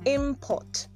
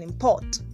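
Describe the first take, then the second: First: The stress is on the first syllable. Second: The stress is on the second syllable.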